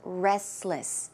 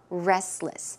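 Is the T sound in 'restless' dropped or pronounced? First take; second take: dropped; dropped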